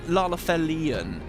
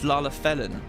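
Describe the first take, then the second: First: The word ends with an extra final syllable. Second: The word ends without the extra final syllable. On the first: The speaker calls it wrong. "it's not Lalafelian" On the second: The speaker calls it right. "it's Lalafelin"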